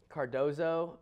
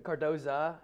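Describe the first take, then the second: First: "Cardozo" drawn out, ending on an oh sound; name ending in -o. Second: "Cardoza" drawn out, ending on an uh sound; name ending in -a. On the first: Podcaster trying a player's surname, "Cardozo" ending in oh. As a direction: say "Cardozo" with a final "oh". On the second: Podcaster correcting a player's surname, "Cardoza" ending in uh. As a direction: say "Cardoza" with a final "uh". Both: Real, not acted. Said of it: "or Card-, Cardoza".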